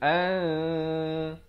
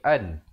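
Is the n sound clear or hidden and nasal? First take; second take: hidden nasal; clear. First: The n is hidden and nasalized for two counts. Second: The n is short and clearly pronounced. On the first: "bila datang zai dia bunyi an, dua harakat" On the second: "Asalnya hamzah baris atas bertemu nun bunyi an"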